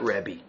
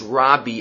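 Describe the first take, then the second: First: The first vowel is an 'e' sound. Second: The first vowel is an open 'a' sound. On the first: The speaker calls it wrong. "and not Rebbe" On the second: The speaker calls it right. "the proper way to pronounce Rav Yehuda Hanasi's nickname is Rabbi"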